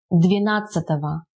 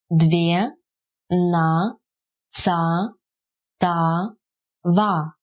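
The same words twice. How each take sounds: First: Said in the usual way. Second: "Две, на, ца, та, ва" as separate drawn-out syllables. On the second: Shown as a demonstration. Teacher breaking down a numeral for learners, syllable by syllable. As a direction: pause after each of "Две, на, ца, та, ва".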